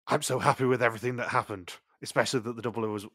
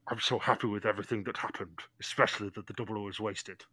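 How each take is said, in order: First: It is said in a normal voice. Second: It is said in a deep Darth Vader voice.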